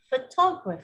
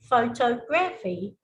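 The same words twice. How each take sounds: First: Photography with the stress on the second syllable, pho-TO-graphy; correct stress. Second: Photography stressed on the first syllable, PHO-tography; wrong stress. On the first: Examiner giving the correct version, photography stressed pho-TO-graphy. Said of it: "instead of". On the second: Examiner demonstrating a common error, photography stressed PHO-tography. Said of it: "a lot of people still say". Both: Shown as a demonstration.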